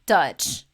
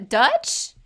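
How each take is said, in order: First: "Dutch." loud with a falling, final tune; flat disgusted statement. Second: "Dutch?" loud with a sharp rising tune; incredulous question. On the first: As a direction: drop "Dutch." down like a verdict. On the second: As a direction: ask "Dutch?" as if it's absurd. Repeating Dutch in disgust. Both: Real, not acted.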